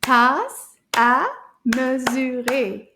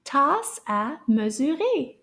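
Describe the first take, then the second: First: "Tasse à mesurer" slow, every syllable separate. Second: "Tasse à mesurer" with syllables joined in each word; a little bit faster. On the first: Teacher clapping little words together, "Tasse à mesurer" in slow beats. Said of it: "let's clap this". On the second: Teacher leading a repeat, "Tasse à mesurer" a bit faster. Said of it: "say those a little bit faster". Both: Shown as a demonstration.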